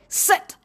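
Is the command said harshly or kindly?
harsh. The command sounds harsh and stern. The speaker calls it wrong. "I have often heard people say"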